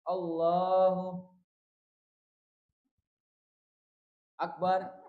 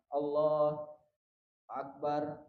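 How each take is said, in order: First: There is a very long pause between the words. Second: There is only a short pause between the words. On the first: The speaker calls it wrong. "Tapi kalau terlalu panjang" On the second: The speaker calls it right. "Pendek, fasalnya itu pemisahnya pen, pendek"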